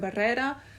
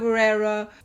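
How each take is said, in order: First: The surname is pronounced in its native way. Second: The surname is pronounced in a familiar anglicized way. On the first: The speaker calls it right. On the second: The speaker calls it wrong.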